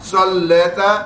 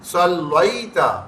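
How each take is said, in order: First: The middle vowel is a plain single vowel. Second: The middle vowel glides softly from a to i. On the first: The speaker calls it wrong. "सल्लेता नहीं है" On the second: The speaker calls it right. "हरूफ लीन बन रहा है, नरमी से पढ़ेंगे"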